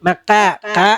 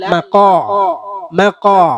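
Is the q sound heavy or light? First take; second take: light; heavy. First: The q sound is thin and light. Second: The q sound is thick and heavy. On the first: The speaker calls it wrong. "ഖാ അല്ല" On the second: The speaker calls it right. "ഖാഫിനെ കനപ്പിച്ച് ഉച്ചരിക്കുക"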